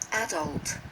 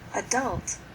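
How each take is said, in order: First: It is said in a British accent. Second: It is said in an American accent.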